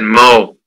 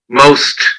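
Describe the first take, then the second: First: The final consonant sounds are left off. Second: The final consonant sounds are clearly pronounced. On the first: The speaker calls it wrong. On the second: The speaker calls it right.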